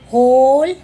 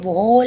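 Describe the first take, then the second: First: The word begins with an h sound. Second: The word begins with a w sound. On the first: The speaker calls it right. "वॉ की आवाज़ नहीं आएगी" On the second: The speaker calls it wrong. "वोल नहीं बोलेंगे"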